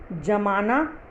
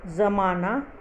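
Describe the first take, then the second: First: जमाना starting on a hard j; wrong pronunciation. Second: ज़माना starting on a buzzing z; pronounced with nukta. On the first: Teacher shows the dotless misreading, जमाना with j. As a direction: say जमाना with j, not z. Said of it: "जो गलत होगा". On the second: Teacher reads her word list, ज़माना said with z. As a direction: say ज़माना with z, not j. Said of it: "ये dot हटा के". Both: Shown as a demonstration.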